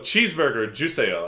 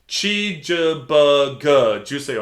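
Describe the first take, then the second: First: Cheeseburger is said with an American English accent. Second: Cheeseburger is said slowly with a Korean accent.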